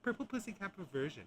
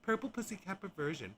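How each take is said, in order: No difference in how they are said.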